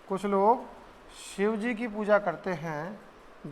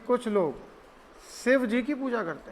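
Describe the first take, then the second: First: Shiv begins with an 'sh' sound. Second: Shiv begins with an 's' sound.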